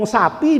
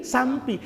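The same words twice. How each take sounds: First: Said in the usual way. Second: "sampi" with an m before the p; dialect pronunciation. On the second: Shown as a demonstration. Preacher contrasting dialect with spelling, "sampi" with added m. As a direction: add an m to sapi, giving "sampi". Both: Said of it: "untuk ngomong sapi dari sampi".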